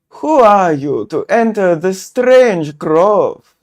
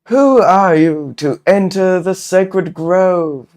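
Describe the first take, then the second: First: It is said in a put-on foreign accent. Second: It is said in the speaker's ordinary accent. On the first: The speaker calls it right. "German? Shall we go German? ... That was not German, but it'll do" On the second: The speaker calls it wrong. "Oh, I should probably. Okay, let me try that again"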